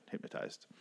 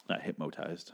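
First: Breathy whispered "Hypnotized." tried out to oneself; trying the word. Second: Said in the usual way. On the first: Shown as a demonstration. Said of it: "That's weird". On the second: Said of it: "That's not a word".

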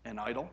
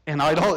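First: Said in the usual way. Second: An idol? cried out loud and rising in disbelief; exclaimed question. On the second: Shown as a demonstration. Preacher showing the verse's exclamation point, loud rising cry. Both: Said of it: "It's an exclamation point".

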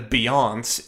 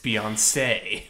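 First: [name] cut to two syllables, "bee-ONSS"; silent final E. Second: [name] in three syllables, ending in "say"; final A sound. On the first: Co-host showing the wrong reading, [name] without its final syllable. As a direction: say [name] as if the last E were silent. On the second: Co-host correcting the accent rule, [name] ending in an A sound. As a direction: say [name] as "bee-on-SAY". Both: Shown as a demonstration. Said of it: "it's an A sound".

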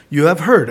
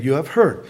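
First: Said in the usual way. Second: "You have heard" echoed lower in pitch; "You have heard" repeated in a lower voice. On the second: Shown as a demonstration.

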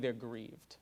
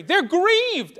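First: Quiet grief. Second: Grieved cried out high and loud; ringing emphasis. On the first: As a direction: sink low and soft on grieved. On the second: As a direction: proclaim it to the room. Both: Shown as a demonstration. Contrasting grief with anger.

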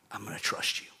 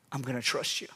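First: Whispered I'm gonna trust you; whispered surrender. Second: Quiet I'm gonna trust you; quiet surrender. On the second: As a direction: drop much softer and lower, I'm gonna trust you. Surrender after dramatic pause. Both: Acted.

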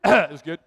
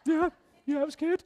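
First: Said in the usual way. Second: High, strained voice on the edge of tears; choked-up yes. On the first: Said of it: "clears throat". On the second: Retold or imitated. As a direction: force it out while welling up. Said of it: "And started crying".

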